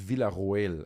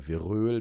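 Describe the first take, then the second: First: The o and e are said as separate vowels. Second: The o and e merge into one ö vowel. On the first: "I think it's Villaroel actually" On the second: "in Germany O E is like Ö"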